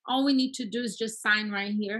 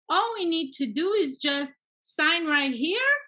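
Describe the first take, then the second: First: The voice falls at the end. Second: The voice rises at the end.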